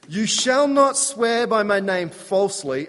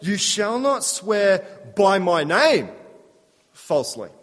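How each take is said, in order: First: The stress falls on the word falsely. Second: The stress falls on the word name. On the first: Swearing falsely is forbidden altogether. The speaker calls it right. "That's how we would all read that" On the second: Swearing falsely is forbidden only when invoking God's name. The speaker calls it wrong. "they put the emphasis slightly differently"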